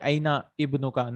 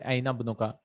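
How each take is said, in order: First: The initial vowel of the second word is pronounced. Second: The words join and the initial vowel is dropped. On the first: The speaker calls it wrong. "I'll not say aina ibnuka" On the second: The speaker calls it right. "I'll say aina bnuka"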